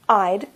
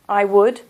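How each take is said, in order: First: The words are contracted into one syllable. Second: Both words are said in full, uncontracted. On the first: The speaker calls it right. "When you use the contraction, ... this is better for your pronunciation" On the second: The speaker calls it wrong. "So we don't say I would like to tell you about"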